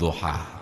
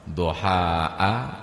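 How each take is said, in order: First: The final vowel is short, with no glottal stop. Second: The final vowel is long, ending in a glottal stop. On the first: "dibaca qasar"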